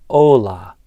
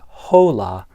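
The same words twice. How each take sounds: First: The word starts directly with the vowel. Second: The word starts with an audible H sound. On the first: The speaker calls it right. "I didn't pronounce the H" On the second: The speaker calls it wrong. "so it's not hola"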